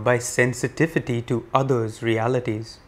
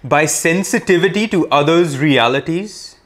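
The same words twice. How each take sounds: First: The words are spoken at normal volume. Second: The words are spoken loudly. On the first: "In a regular voice now" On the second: "let us say it loudly first"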